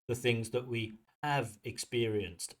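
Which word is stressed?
have. The stress falls on the word have. The speaker calls it wrong.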